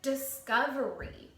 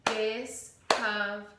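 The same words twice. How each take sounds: First: Said in the usual way. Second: "Discovery" slowly as dis-cov-er-y; syllables chopped. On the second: Shown as a demonstration. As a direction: chop "Discovery" into clear chunks. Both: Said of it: "Try to do it with me".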